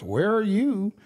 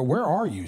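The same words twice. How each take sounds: First: "you" stressed high, then falling; retold retort. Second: "Where" leads, "you" left unstressed; retold question. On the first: Daughter turning the question back on dad, retold retort. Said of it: "She goes". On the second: Dad asking his daughter where she is, retold question. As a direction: lean on "Where", then let it fall away. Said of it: "I go".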